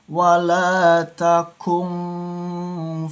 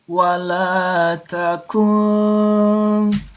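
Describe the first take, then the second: First: The nasal hum on the n is exaggerated. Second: The nasal hum on the n is light. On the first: The speaker calls it wrong. "contoh yang lebay itu membacanya seperti ini" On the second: The speaker calls it right. "Harus didengungkan tipis"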